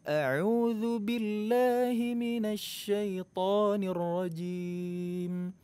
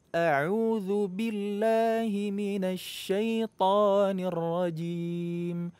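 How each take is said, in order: The two takes are said the same way.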